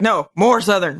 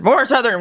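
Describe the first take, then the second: First: Said in the usual way. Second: More Southern, said higher and pressing; "more Southern" pushed harder, pitched up; the director insists again, higher and more insistent; pushier repeat. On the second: Retold or imitated. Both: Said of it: "they're like".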